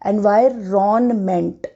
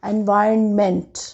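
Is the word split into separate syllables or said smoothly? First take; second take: split; smooth. First: The word is broken into separate syllables. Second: The word is said smoothly with a silent n. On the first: "इसको अगर fragments में देखेंगे तो वो ऐसे है" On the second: "एन again silent"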